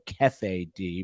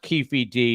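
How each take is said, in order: First: The first syllable is read as spelled, 'keff'. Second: The first syllable is said with 'keef'. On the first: It is read the way a news agency spells it. The speaker calls it wrong. "the A P spells it with two F's and one E" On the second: This is how the name is actually pronounced. The speaker calls it right. "But it's pronounced Keefe D"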